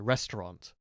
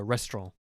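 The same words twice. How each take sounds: First: The final T sound is clearly pronounced. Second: The final T sound is left silent. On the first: "pronouncing the T at the end" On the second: "If you're posh, you go restaurant. You pronounce it more like a French person would"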